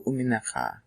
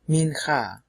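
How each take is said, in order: First: The word is said in full, all syllables kept. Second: The word is shortened, with syllables dropped.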